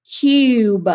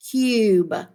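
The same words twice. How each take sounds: First: "Cube" said loud and clear with a long U; model word. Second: Said in the usual way. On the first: Shown as a demonstration. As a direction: call out "Cube" loudly, stretching the U. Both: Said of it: "See if you can hear".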